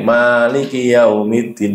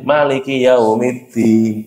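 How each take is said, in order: First: The vowel after the M is long. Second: The vowel after the M is short. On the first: It means the one who owns and rules. "iso diwaca dawa kayak biasa" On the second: It means the king. "Mimnya itu pendek gitu"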